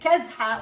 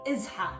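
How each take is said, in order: First: The word begins with a k sound. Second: The word begins with a vowel, no k. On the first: The speaker calls it wrong. "instead of saying kezha" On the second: The speaker calls it right. "it's really izha"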